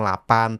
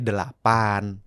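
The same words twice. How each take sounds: First: The word is said loosely, with sounds slurred. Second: The word is said fully, with every sound clear. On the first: It sounds too casual for a formal event. The speaker calls it wrong. "jangan ngomong" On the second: It suits a formal event. The speaker calls it right.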